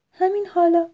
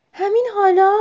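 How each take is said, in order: First: Raised, emphatic confirmation; mother's firm answer. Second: High, loud anxious question; worried question. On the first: Mother owl answers her nervous owlet, firm and emphatic. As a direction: answer the worried child firmly. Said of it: "مامانش گفت". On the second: Owlet asks mother if it must go now, worried. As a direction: ask anxiously, pitch lifting sharply. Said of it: "با نگرانی گفت". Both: A narrator's reading.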